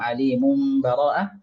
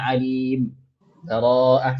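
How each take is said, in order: First: The two words run together without a break. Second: A brief breathless pause comes before bara'ah. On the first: "boleh kita sambung"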